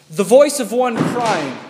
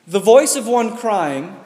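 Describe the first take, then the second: Both takes have the same delivery.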